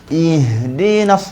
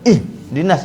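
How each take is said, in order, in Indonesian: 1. Suaranya terus mengalir melewati bunyi h. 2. Suaranya terputus setelah bunyi h. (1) "Nampak tak angin ha saya putus tak suara? Tak putus" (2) "Masa sebut ih itu jangan putuskan suara. Jangan baca ih dinas"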